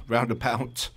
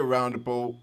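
First: A light London accent on roundabout, said as "roundabout" with a laugh; a quick, understated London twang on roundabout. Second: Said in the usual way. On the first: Shown as a demonstration. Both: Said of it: "That's my London accent".

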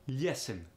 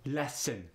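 First: "Lesson" with a y-glide, Russian "lyesson"; thick Russian glide in "Lesson"; thicker Russian accent. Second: "Lesson" with an open e, light Russian accent; lighter Russian accent. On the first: the speaker showing accent thickness, thicker Russian accent. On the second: the speaker showing accent thickness, lighter Russian accent. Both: Shown as a demonstration. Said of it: "It depends on the thickness".

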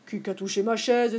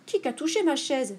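First: Lightly voiced big bear, at usual pitch; a hint of Papa Bear complaining; big bear's cry. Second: Lightly voiced middle bear, higher pitch; a hint of a medium-sized bear, mildly indignant; middle bear's cry. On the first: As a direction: ask it as the big bear, mildly indignant. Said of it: "s'écria Grand Ours". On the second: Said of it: "s'écria à son tour Médiours". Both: A narrator's reading.

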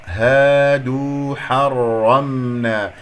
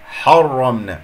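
First: Slow Quran recitation of حرمنا with a light ح; measured recitation. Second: حرمنا with the ح thickened beside the heavy ر. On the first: Teacher reciting the word for students, measured recitation. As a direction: recite حرمنا slowly, ح kept thin. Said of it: "هنا في كلمة حرمنا ممكن أن تقول". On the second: Teacher showing an allowed reading, heavy ḥa. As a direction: make the ح in حرمنا full and heavy. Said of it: "تفخم الحاء لأن جاورت الراء المفخم". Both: Shown as a demonstration.

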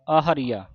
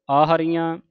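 First: ਆਹਰੀਆ said with a plain oral ending, no nasal; ਆਹਰੀਆ ending clean on aa; correct reading. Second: ਆਹਰੀਆਂ said with a nasal ending, the wrong way; ਆਹਰੀਆਂ with nasalised final aan; wrong reading. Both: Shown as a demonstration. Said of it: "ਆਹਰੀਆ ਨਹੀਂ ਕਹਿਣਾ".

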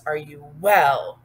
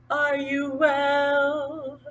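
First: Louder, slow and firm; strong. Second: Slow higher sung question; singing. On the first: Teacher showing how to say it, strong delivery. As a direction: say it strong, a little slowly. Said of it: "Like strong". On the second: Teacher singing the question with signs, slow singing. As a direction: sing it with a long final note. Sings line after spoken demo. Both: Shown as a demonstration.

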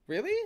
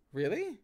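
First: High rising mock-surprise; feigned disbelief. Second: Feigned disbelief. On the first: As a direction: overplay the disbelief, higher. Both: A narrator's reading. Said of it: "Feigning disbelief".

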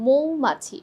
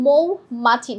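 First: মৌমাছি with a rounded মো at the start; মৌমাছি opening on "mo", as with ও-কার; correct pronunciation. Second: মৌমাছি with open মউ at the start, drawn out; মৌমাছি starting on an open "aw-u" glide; wrong pronunciation. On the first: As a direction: say মৌমাছি as মোউ-মাছি, first vowel a closed o. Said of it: "ময় ওকার". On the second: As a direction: say মৌমাছি slowly as মউ-মাছি, first vowel open. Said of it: "মৌ হবে না". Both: Shown as a demonstration.

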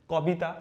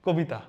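First: "কবিতা" with open aw in ক; literal spelling pronunciation. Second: "কবিতা" with a rounded o after ক; everyday "কবিতা", closed o in the first syllable; spoken o-sound. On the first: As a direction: say "কবিতা" as kaw-bi-ta. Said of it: "ক এর উচ্চারণ কি হওয়া উচিত?". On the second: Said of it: "কয়ে ওকার যুক্ত করেই বলি". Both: Shown as a demonstration.

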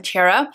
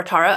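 First: Tara in the first of two possible pronunciations. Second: Tara with its vowel changed, as an alternative; alternative pronunciation of Tara. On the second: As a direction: say "Tara" the other possible way. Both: Shown as a demonstration. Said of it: "she will probably have to correct me".

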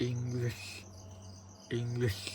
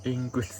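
First: "English" slowly practised as "ing-lish", with a clear l; careful pronunciation practice. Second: "English" said as "ing-kis", with a k and no clear l; stiff-tongued "English", saying "ing-kis"; mispronounced English. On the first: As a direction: sound out "English" softly, tongue placed for the l. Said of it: "หลังปากบนเรียกว่าเพดานปาก". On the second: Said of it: "ผมออกเสียงไม่ถูก". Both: Shown as a demonstration.

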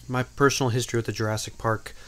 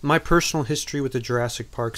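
First: Said in the usual way. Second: Too loud. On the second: Real, not acted. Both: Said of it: "I came in a little loud there".

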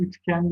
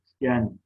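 First: "Üçgen" with k for g; hard k in "Üçgen"; misspelt form. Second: Said in the usual way. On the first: Shown as a demonstration. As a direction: say "Üçgen" as üçken. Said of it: "yanlış yazılmış olan sözcüklerin doğrularını". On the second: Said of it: "doğrularını yazalım".

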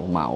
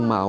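First: เหมา said with a rising tone. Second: เมา said on a level mid tone. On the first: Vlogger unsure how the tribe's name is read, เหมา with rising tone. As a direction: let the pitch climb through เหมา. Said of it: "ผมไม่แน่ใจว่าเขาอ่านออกเสียงว่า". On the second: Vlogger offering the other reading of the name, เมา in mid tone. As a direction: keep เมา level, without the rise. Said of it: "อ่านออกเสียงว่าเหมาหรือว่า". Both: Shown as a demonstration.

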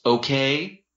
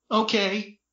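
First: Rising, firmer okay; boyfriend agreeing. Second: High, small-voiced agreement; tearful. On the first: Boyfriend letting go of her arm, conceding. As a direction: agree with pitch lifting at the end. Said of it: "Dean said, letting go". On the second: Brother still crying on the floor, tearful. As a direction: give in with a mild whimper. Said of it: "still crying on the floor". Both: A narrator's reading.

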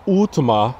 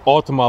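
First: Ultima with an opening "oo" vowel; pronounced OO-tima. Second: Ultima with an opening "aw" vowel; like Nissan Altima. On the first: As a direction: say Ultima starting like "oo", as in "food". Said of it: "I think it's pronounced". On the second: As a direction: say Ultima like Altima, starting "awl". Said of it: "not necessarily Ultima like Nissan". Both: Shown as a demonstration.

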